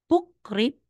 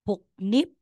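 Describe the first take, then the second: First: The second syllable begins with an R sound. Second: The second syllable begins with an N sound. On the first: The speaker calls it wrong. "aside na sasabihin mong pukrip" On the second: The speaker calls it right. "magiging puknip"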